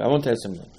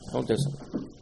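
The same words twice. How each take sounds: First: Said in the usual way. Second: A hushed whispered repeat. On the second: Retold or imitated. Moshe confiding in Hashem, whispered.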